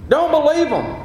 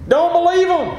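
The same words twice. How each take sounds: The two takes are said the same way.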